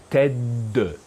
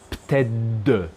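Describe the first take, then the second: First: The word ends with a d sound. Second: The same.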